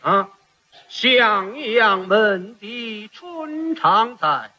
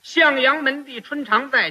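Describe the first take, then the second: First: It is drawn out with strong nasal resonance. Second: It is spoken plainly, like ordinary speech.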